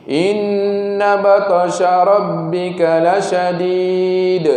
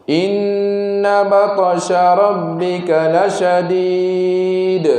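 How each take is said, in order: The two takes are said the same way.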